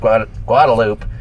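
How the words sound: The name is pronounced with a Texan accent. The name is said the way local Texans say it. The speaker calls it wrong. "with like a Texas accent"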